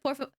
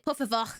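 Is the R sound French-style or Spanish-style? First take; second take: Spanish; French. First: The R is a Spanish tongue-tip R. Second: The R is a French throaty R. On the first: "instead of" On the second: "I default to the French R"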